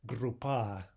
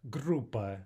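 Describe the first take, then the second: First: Группа stressed on the last syllable, PA; light GRU, then lean on PA in Группа; misplaced final stress. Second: Группа with a strong GRU, weak PA; correct first-syllable stress. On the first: Teacher lets students hear the difference, stressed last syllable. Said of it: "Hear the difference?". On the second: Teacher shows what we want to say, stressed first syllable. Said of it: "is what we want to say". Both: Shown as a demonstration.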